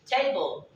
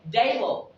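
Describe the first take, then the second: First: TABLE with a crisp initial T; slow TABLE, T fully sounded; T pronounced. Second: TABLE with T softened toward D; wrong softened T. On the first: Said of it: "there is a single T". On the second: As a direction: say TABLE like "dable". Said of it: "you'll not say table". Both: Shown as a demonstration.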